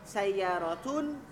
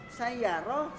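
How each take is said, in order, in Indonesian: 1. Kata ini berakhir dengan bunyi 'tun' yang utuh. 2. Kata ini berakhir dengan bunyi h saja. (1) "harus jelas harokatnya" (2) "dalam percakapan semuanya jadi sama, semuanya jadi hak mati"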